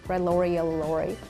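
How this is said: It is spoken in an American English accent. "The way I would say is... I studied American accent"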